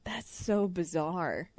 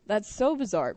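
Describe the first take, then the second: First: Slow, softer, letting it sink in; drawn-out, softer disbelief at a strange story; slow, softer amazement; stunned disbelief. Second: Said in the usual way. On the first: Real, not acted. Reacting to bathroom story.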